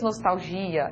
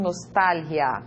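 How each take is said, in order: First: Nostalgia the Portuguese way, "nostalzhia"; Portuguese pronunciation. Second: Nostalgia with a breathy Spanish j sound on the g, said slowly; Spanish pronunciation. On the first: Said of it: "En portugués". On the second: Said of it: "En español". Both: Shown as a demonstration.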